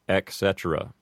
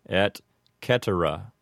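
First: The first word ends in a K sound. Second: The C in cetera is a hard K sound. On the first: "mispronounced as ec cetera" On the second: "the C in cetera would be a hard C"

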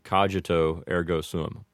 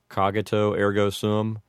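First: A soft G sound in cogito. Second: Americanized vowels with a hard G in cogito. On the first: "make the G a soft G" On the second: "with an Americanized type of pronunciation"

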